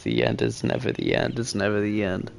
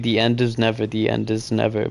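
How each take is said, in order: First: The phrase breaks after the word end. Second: The phrase breaks after the word never.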